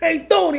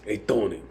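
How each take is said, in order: First: It is said in an excitable, jokey voice. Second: It is said in a chill, relaxed voice.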